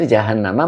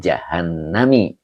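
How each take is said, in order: First: The word ends with an 'a' vowel. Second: The word ends with an 'i' vowel. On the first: The speaker calls it right. "majrur yang dijarkan dengan fathah" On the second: The speaker calls it wrong. "Jadi tidak boleh dibaca"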